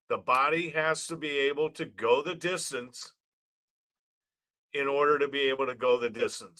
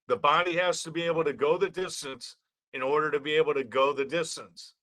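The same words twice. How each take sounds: First: It is said very slowly. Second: It is said at a normal speed.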